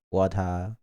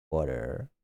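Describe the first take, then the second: First: "water" with a crisp t, no final r, lower; fluctuating pronunciation. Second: "water" low and soft, with final r; fluctuating pronunciation. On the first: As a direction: lower "water", ending in tah. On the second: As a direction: drop low on "water", d-like t and rounded-off r. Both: Shown as a demonstration. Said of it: "the way I say water".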